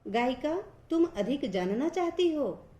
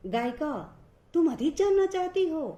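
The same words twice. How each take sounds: First: Said in the usual way. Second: Higher, louder astonished exclamation; with surprise. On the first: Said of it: "दूसरा सामान्य वाक्य है". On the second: Shown as a demonstration. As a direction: exclaim it in disbelief. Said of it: "फिर विस्मय से".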